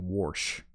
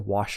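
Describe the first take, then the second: First: The word is said with an added R sound. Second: The word is said without an R sound. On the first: "they say wash. ... They add an R" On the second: "They don't say wash your hands"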